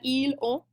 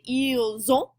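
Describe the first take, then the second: First: The S stays silent with no linking. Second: The S links to the next word as Z. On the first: The speaker calls it wrong. "it's much harder" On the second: The speaker calls it right. "we're going to say ils ont"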